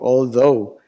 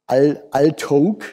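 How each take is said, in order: First: The word ends in a vowel, no g sound. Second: The word ends with a hard g sound. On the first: The speaker calls it right. "sondern Sie sagen although" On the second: The speaker calls it wrong. "Sie sagen nicht altog"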